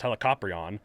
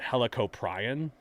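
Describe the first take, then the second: First: The word flows smoothly as one unit. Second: The word is broken into separate chunks. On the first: The speaker calls it right. "it's pronounced Helicoprion" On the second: The speaker calls it wrong. "I was segmenting it too much"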